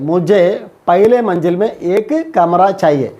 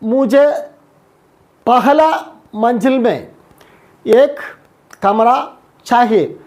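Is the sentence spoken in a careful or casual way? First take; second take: casual; careful. First: Words are reduced and run together casually. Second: Each word is pronounced fully and distinctly. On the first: This is everyday conversational speech. "ഇത് നമ്മൾ നാടൻ ശൈലിയാണ്, സംസാര രീതിയിലാണ് നമ്മൾ പറയുന്നത്" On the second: This is the formal written form. "വളരെ സ്പഷ്ടമായിട്ടും സ്ഫുടമായിട്ടും ഓരോ വാക്കുകളും എടുത്തെടുത്ത് നമ്മൾ പറയും"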